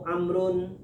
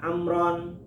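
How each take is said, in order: First: The name ends with a u sound before n. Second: The name ends with an a sound before n. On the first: "Kalau barisnya nu" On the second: "Kalau barisnya na"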